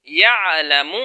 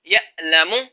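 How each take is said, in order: First: The middle consonant is a soft pharyngeal sound. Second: The middle consonant is a sharp glottal stop. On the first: The speaker calls it right. "पहले हमने पढ़ा यअलमु" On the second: The speaker calls it wrong. "आइन हमजा में बदल जाएगा"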